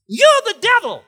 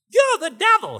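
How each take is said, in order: First: Much higher and louder, whining; mocking high kid voice; high whiny voice. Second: Much higher, whiny and loud; shrill mocking kid voice. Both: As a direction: whine it high like a taunting kid. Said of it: "He had this real high, whiny type voice".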